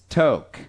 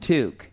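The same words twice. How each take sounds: First: The vowel sounds like the one in yoke. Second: The vowel sounds like the one in fluke. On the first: The speaker calls it wrong. "you guys have to stop pronouncing toque as toque" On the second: The speaker calls it right. "we pronounce it toque ... It absolutely rhymes with fluke"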